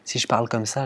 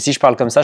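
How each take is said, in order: First: It is spoken quietly and softly. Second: It is spoken loudly and forcefully. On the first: "parler un tout petit peu plus doucement" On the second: "je pense que c'est trop fort"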